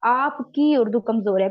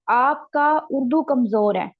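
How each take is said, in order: First: आपकी stressed as the fix; corrected form. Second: आपका said slowly with a falling stress, marked as the error; slow, weighty आपका kamzor hai; wrong form. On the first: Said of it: "यहाँ पे होना था की". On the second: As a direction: present आपका as the mistake. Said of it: "यहाँ पे का नहीं होना था". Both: Shown as a demonstration.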